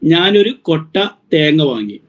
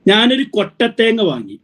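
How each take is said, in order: First: Kotta and thenga are said as separate words. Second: Kotta and thenga run together as one word. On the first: It is a whole basket of coconuts. "ഒരു കൊട്ട തേങ്ങ എന്ന് പറഞ്ഞപ്പോഴേക്കും എന്തായി? ഒരു ചാക്ക് അല്ലെങ്കിൽ ഒരു ഒരു ഒരു basket" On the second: It is dried coconut without water. "ഒരു കൊട്ടത്തേങ്ങ എന്ന് പറഞ്ഞപ്പോ എന്തായി? വെള്ളമില്ലാത്ത ഉണങ്ങിയ തേങ്ങയായി"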